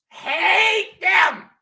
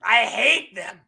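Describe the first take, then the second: First: Hate them, yelled much higher and louder; shouted hate. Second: Said in the usual way. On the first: Shown as a demonstration. Ranting at the Saints to his stream, yelling. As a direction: blow up on the word hate.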